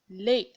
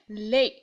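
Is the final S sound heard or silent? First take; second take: silent; silent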